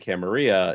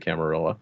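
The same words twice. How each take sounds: First: The double L is said like a Y. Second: The double L is said like an L. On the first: The character knows Spanish and the Old World. "vampire who would be familiar with Spanish and the double L" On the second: The character is a New World, American type. "a more New World vampire, you know, American sort of one"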